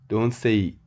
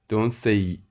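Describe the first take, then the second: No difference in how they are said.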